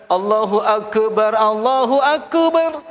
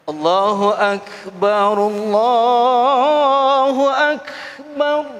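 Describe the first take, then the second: First: Slow "Allahu Akbar" with a clear final r; correct takbir. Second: Very slow, drawn-out "Allahu Akbar" with a slurred ending; wrong adzan reading. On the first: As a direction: say "Allahu Akbar" fully, finishing on r. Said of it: "Walaupun cuman komat". ("Allahu Akbar" dengan r yang jelas) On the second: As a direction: stretch "Allahu Akbar" and drop the final r. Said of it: "Salah itu bunyinya". ("Allahu Akbar" dipanjangkan, akhirnya salah) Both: Shown as a demonstration.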